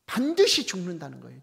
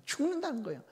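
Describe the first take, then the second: First: 반드시 hit hard and louder; stress on 반드시. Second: 죽는다는 lifted much higher, falling; stress on 죽는다는. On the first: Pastor insisting on God's warning, 반드시 stressed loud. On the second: Pastor repeating the warning, 죽는다는 lifted high. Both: Shown as a demonstration. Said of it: "하나님은 그 말씀이 아니지 않습니까?".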